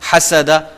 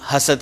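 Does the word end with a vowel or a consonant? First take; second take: vowel; consonant. First: The word ends with a final 'a' vowel. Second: The word ends on the consonant 'd'.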